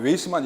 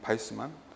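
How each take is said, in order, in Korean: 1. 이 이름은 W 소리로 시작해요. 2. 이 이름은 B 소리로 시작해요. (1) "영어 발음으로 하면 웨이스만" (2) "바이스만이야. 독일 사람 같아 발음상"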